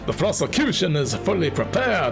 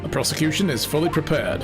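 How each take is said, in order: First: It is said in a put-on character voice. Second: It is said in a natural speaking voice. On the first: The speaker calls it wrong. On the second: The speaker calls it right.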